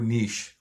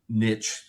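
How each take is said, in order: First: The word is said the Canadian way. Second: The word is said the American way. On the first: "I'm Canadian, so I tend to go niche automatically" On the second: "I try to adjust for niche, which I think is more American"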